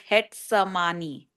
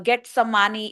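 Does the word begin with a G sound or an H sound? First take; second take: H sound; G sound. First: The word begins with an H sound. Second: The word begins with a hard G sound. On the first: "pronounced as Hetsamani" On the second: "that's how it's written"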